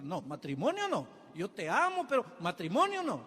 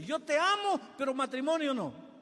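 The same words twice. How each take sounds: First: Mock backing out. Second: Mocking echo. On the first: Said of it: "Ahí él da un salto atrás". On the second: Shown as a demonstration. Preacher mocking a fickle suitor, scornful high echo. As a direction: parrot his dodge with scorn, much higher. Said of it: "¿Qué tipo de amor es ese?".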